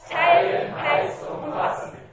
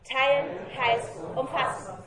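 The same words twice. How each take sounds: First: The phrase is said very loudly. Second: The phrase is said at a normal volume.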